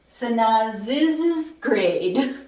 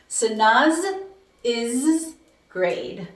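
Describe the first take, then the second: First: The phrase is said at normal speed. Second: The phrase is said slowly, syllables pulled apart.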